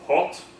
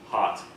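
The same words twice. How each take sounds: First: It is said with a British rounded vowel. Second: It is said with an American unrounded vowel.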